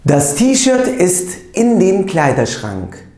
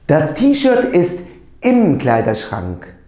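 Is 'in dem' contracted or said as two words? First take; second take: two words; contracted. First: The words 'in dem' are said separately. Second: The words 'in dem' are merged into 'im'.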